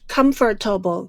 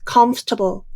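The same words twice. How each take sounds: First: The word is said with four syllables. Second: The word is said with three syllables. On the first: The speaker calls it wrong. "not comfortable" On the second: The speaker calls it right. "the pronunciation of this word is comfortable, There are only three syllables in this word"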